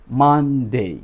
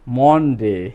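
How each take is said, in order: First: মানডে with an open "ah" in the first syllable; correct pronunciation. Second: মনডে with a rounded o in the first syllable; common mispronunciation. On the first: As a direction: say মানডে carefully as "mahn-day". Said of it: "এই সিম্বলটার নাম হলো". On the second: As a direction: say মনডে the wrong way, as "mon-day". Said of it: "আমরা সবাই কি বলি". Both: Shown as a demonstration.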